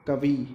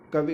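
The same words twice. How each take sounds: First: कवि with a long ee ending; long final vowel. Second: Said in the usual way. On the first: Shown as a demonstration. Teacher showing the long-i error, कवि ending in long ee. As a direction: stretch the last i of कवि into "ee". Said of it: "कहते बड़े ई है". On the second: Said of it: "लिखते ई है और कहते बड़े ई है".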